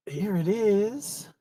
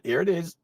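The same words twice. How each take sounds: First: Drawn-out slow. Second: Said in the usual way. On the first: Real, not acted. Streamer pleased to find the item, slow drawn-out. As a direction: stretch each word out slowly with a lifting end. Found it, savouring it.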